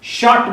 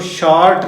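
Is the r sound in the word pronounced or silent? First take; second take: silent; pronounced. First: The r sound is silent. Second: The r sound is clearly pronounced. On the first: The speaker calls it right. "शॉर्ट बोला जाता है इसको" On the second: The speaker calls it wrong. "शॉर्ट नहीं बोला जाता है"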